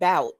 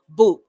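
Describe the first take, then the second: First: The vowel sounds like the one in 'out'. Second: The vowel sounds like the one in 'too'. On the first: "some people would think it's pronounced bout, but it's it's not" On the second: "the phonetic pronunciation uh, to be boot"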